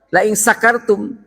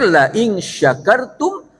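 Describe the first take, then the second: First: The word after 'la in' begins with 's'. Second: The word after 'la in' begins with 'sh'. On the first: Whoever is drunk. The speaker calls it wrong. "Kalau pakai sin" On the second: Whoever is grateful. The speaker calls it right. "yang benar"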